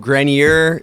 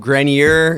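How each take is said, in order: First: The name has a general American pronunciation. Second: The name has a general American pronunciation.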